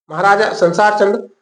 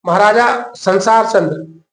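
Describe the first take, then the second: First: Said in the usual way. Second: Slow, drawn out, "संसार" leaned on with a falling tune; slow teaching stress. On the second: Shown as a demonstration. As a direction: spell out "महाराजा संसार चंद्र" slowly so students remember it. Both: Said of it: "Patna का, पटना में".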